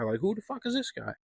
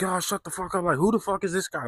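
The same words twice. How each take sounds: First: Higher, softer put-on sneer; mocking pub crowd, repeated. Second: Higher, dismissive mock voice of the regulars; mocking pub crowd. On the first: Pub regulars mocking the stranger again, higher softer sneer. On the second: Pub regulars brushing off Tommy, higher dismissive scoff. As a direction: scoff at the stranger like a smug drinker. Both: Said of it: "And everybody's like".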